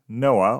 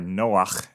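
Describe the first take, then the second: First: The name is said with an English pronunciation. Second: The name is said with a Hebrew pronunciation. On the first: The speaker calls it wrong. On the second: The speaker calls it right.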